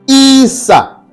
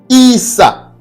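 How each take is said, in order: The two takes are said the same way.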